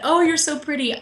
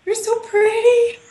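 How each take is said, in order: First: A touch higher, lighter coo; cooing at baby. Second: High, slow, loud cooing with a laugh; cooing at baby. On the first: Author retells cooing at her book, mildly. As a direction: admire it gently like a baby. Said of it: "I said". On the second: Author coos at her new book like a baby. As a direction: coo over it like a newborn baby. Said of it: "And this is what I did". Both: Retold or imitated.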